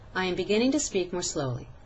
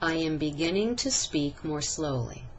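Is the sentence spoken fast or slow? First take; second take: fast; slow. First: It is spoken quickly with short vowels. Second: It is spoken slowly with stretched vowels. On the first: The speaker calls it wrong. "once quickly" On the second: The speaker calls it right. "I spoke at a more appropriate rate by stretching"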